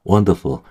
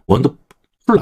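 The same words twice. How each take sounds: First: "wonderful" with a weak final syllable; correct weak ending. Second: "wonderful" with a strong, full final "pul"; over-pronounce the last syllable of "wonderful"; wrong wonderful. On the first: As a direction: let the "ful" of "wonderful" go light. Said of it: "약해요, 여기". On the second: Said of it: "wonderful 아니에요". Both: Shown as a demonstration.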